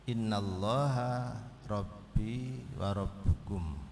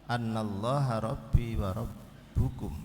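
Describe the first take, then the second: First: The first word begins with an 'i' vowel. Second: The first word begins with an 'a' vowel. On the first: It follows an implied command to say. "bikasriha ... anna inna menjadi inna" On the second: It follows an implied command to remember. "bifathi anna diwaca fathai"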